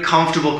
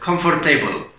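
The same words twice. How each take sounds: First: The ending is reduced, with no table sound. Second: The ending sounds clearly like the word table. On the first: The speaker calls it right. "There's no table in comfortable" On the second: The speaker calls it wrong. "I hear it all the time as comfortable"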